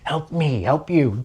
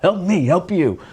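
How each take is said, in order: First: Half-hearted try at the film hero's famous plea; Tom Cruise impression. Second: A put-on movie accent, a bit higher, on Help me, help you; wrong accent. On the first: Vlogger retries the movie quote for viewers, a terrible impression. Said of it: "I'm not gonna start doing Tom Cruise impressions". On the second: Vlogger jokingly quotes a movie line to viewers, in the wrong accent. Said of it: "wrong accent for the wrong movie".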